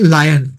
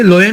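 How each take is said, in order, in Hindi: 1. पहला स्वर 'eye' जैसा लगता है। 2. पहला स्वर 'oh' जैसा लगता है। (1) "सही उच्चारण है लायन" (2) "इसे लोयन नहीं कहते हैं"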